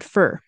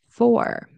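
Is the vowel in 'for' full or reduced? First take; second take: reduced; full. First: The word sounds like 'fur', with a reduced vowel. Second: The word sounds like 'four', with a full vowel. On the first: "In a sentence, usually it's fur" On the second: "Separately, that's how we pronounce it"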